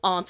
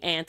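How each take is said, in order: First: The word is said with a British pronunciation. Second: The word is said with an American pronunciation. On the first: "Aunt is a British thing" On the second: "Aunt is an American thing"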